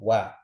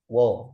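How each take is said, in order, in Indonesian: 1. Vokalnya tipis dan terbuka, seperti a. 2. Vokalnya tebal dan bulat, seperti o. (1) "jangan ngikut fathahnya tebal" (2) "jangan wo ya"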